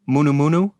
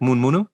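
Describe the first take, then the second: First: Both parts are said fully and carefully. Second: The first part is quickly shortened to one syllable.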